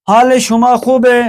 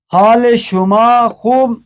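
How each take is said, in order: First: خوب ہے run together as khub-e; short -e after خوب in place of ast; spoken Persian form. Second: Slow, خوب left bare without -e; stretched-out خوب, ending left open; written form unfinished. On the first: Teacher reads the exercise, colloquial khub-e for خوب ہے. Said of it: "فارسی گفتاری". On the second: Teacher leaves است for learners to add, slow bare خوب. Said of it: "اس کو است لگانا ہے". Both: Shown as a demonstration.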